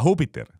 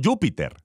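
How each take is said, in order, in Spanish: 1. Empieza con una h fuerte y gutural. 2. Empieza con un sonido y. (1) "En latín no se llamaba Júpiter" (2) "La J no existe en latín. En latín él es llamado Júpiter"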